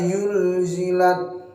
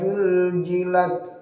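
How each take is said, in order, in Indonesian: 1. Kata ini dimulai dengan bunyi y. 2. Kata ini dimulai dengan bunyi j. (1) "jangan sampai dirubah menjadi huruf ya" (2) "dirubah ini yang paling sering menjadi huruf jim"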